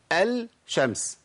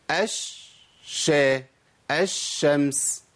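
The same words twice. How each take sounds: First: Slow "الشمس" as "al-shams"; sounded lam. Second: Very slow "الشمس" with a long hissed shhh; merged lam. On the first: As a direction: separate a clear l from the sh in "الشمس". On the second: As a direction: drop the l and hold the doubled sh in "الشمس". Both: Shown as a demonstration. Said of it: "أنا بشيل اللام وأحط شين".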